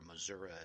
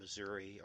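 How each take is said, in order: First: The word is said in the local regional way. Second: The word is said in the speaker's usual way.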